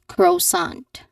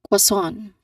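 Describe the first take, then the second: First: The second syllable is plain, not nasal. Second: The second syllable is nasal. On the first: The speaker calls it wrong. "the common mistake people do is that they say it as croissant" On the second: The speaker calls it right. "it sounds a bit nasal"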